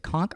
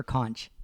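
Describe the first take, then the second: First: Conch said as "konk"; hard-k pronunciation. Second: Conch said as "kontch"; soft-ch pronunciation. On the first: Husband asking how conch is said, pronouncing conch "konk". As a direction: end conch on a hard k sound. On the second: Husband asking how conch is said, pronouncing conch "kontch". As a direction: end conch on a ch, as in lunch. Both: Shown as a demonstration. Asks which pronunciation is right.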